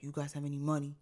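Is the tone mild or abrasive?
abrasive. It is said in a harsh, abrasive tone.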